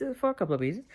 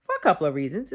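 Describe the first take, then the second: First: Softer, trailing repeat. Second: Said in the usual way. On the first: Real, not acted. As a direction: drop the volume on the repeat.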